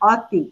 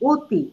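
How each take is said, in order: First: The first vowel is an open 'aw' sound. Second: The first vowel is a closed 'o' sound. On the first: "আমি লিখেছি স্বরে অ, ত, হ্রস্বইকার অতি।" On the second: "কিন্তু আমি বলছি অতি।"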